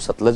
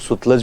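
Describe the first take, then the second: First: The first syllable has an 'a' vowel. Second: The first syllable has a 'u' vowel. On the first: This is how the speaker's own community says it. "हम लोग इसको सतलज बोलते हैं" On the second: This is how people from Punjab and Haryana say it. "वो लोग इसको सुतलज भी बोलते हैं"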